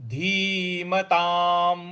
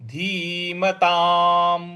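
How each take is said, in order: Both takes have the same delivery.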